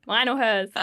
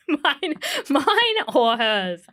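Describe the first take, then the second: First: Said in the usual way. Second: "Mine, mine or hers?" drawn out very slowly; slow, deliberate. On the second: Shown as a demonstration. Mum to midwife about nappies, slow and deliberate.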